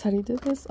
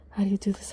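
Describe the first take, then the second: First: Said in the usual way. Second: Soft unvoiced whisper to herself. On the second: Real, not acted. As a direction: whisper it while fiddling.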